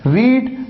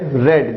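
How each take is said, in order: First: The vowel is a long 'ee' sound. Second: The vowel is a short 'e' sound. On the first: It is the present form of the verb. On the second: It is the past or past participle form.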